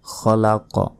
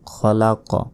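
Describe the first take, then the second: Both takes have the same delivery.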